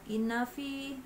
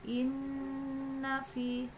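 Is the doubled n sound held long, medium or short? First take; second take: short; medium. First: The n is passed over quickly without holding. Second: The n is held for about two beats. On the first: The speaker calls it wrong. "jangan langsung" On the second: The speaker calls it right. "kamu harus melakukan penekanan pada huruf nun"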